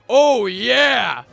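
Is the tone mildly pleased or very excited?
mildly pleased. It sounds mildly pleased and calm.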